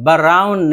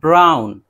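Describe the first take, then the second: First: An extra vowel separates the b from the r. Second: The b and r are joined directly. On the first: The speaker calls it wrong. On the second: The speaker calls it right.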